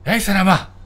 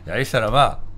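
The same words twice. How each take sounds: First: It sounds really angry and furious. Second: It sounds annoyed, with changed tone and stress.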